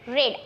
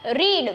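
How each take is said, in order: First: The vowel is short, as in 'red'. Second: The vowel is long, as in 'reed'. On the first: It is the past or past participle form. "वी टू और वी three का होगा रेड" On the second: It is the base form of the verb. "रीड वी one है"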